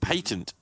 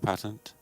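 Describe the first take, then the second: First: It is said in a British accent. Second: It is said in an American accent.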